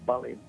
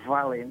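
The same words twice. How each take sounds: First: The word begins with a two-lip b sound. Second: The word begins with a lip-and-teeth v sound. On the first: The speaker calls it wrong. "no valent" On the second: The speaker calls it right. "la V se pronuncia UV"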